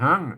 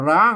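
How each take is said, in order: First: The word begins with an h sound. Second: The word begins with an r sound. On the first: This is the Northern Thai pronunciation. "เมืองก็ห้างนะฮะ" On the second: This is the Central Thai pronunciation. "ถ้าไทยก็ร้างนะครับ"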